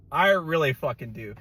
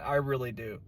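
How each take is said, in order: First: Emphatic "I really fucking do". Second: Said in the usual way. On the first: Shown as a demonstration. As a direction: stress on "fucking", louder.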